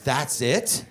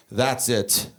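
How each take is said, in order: First: THAT'S IT lifted into a baffled question; puzzled question. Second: Low, final statement from dad; dad's warning. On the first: Confused kid repeating dad's words, "That's it" rising in puzzlement. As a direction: echo "That's it" with a questioning rise on IT. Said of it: "What does he mean by". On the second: Dad driving, to kids in back seat, low terse warning. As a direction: lay it down as a final verdict. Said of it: "He looks back, he goes". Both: Retold or imitated.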